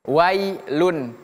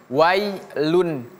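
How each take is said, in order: Both takes have the same delivery.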